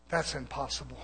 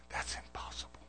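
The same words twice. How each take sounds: First: Said in the usual way. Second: Voiceless, very soft emphasis; hushed whisper. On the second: Real, not acted. Preacher denying the born again claim, hushed whisper. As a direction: drop right down to a whisper.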